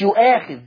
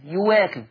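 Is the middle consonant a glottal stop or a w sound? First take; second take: glottal stop; w sound. First: The middle consonant is a glottal stop. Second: The middle consonant is a w sound. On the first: This is the reading of another reciter, not Warsh. The speaker calls it wrong. "مش يؤاخذ" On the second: This is the Warsh reading. The speaker calls it right. "ورش يبدل الهمزة ديت واو"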